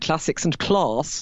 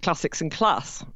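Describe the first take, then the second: First: It is said in an elocution-trained accent. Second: It is said in a Nottingham accent. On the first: It marks a trained, higher-status way of speaking. "I got given elocution lessons ... I've ended up saying" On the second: It marks a regional, grammar-school background. "When I was brought up in Nottingham, I would have definitely have said"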